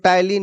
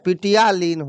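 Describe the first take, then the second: First: The word starts with T, no P. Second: The word starts with a sounded P. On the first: The speaker calls it right. "लेकिन उसको टाइलिन याद रखना है" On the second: The speaker calls it wrong. "पी उसका silent होता है है पिटियालीन होता है लिखा हुआ"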